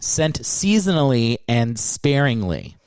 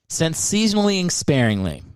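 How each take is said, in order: First: Each word is pronounced crisply and distinctly. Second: The words are run together and unclear. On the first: The speaker calls it right. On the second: The speaker calls it wrong. "Good Lord"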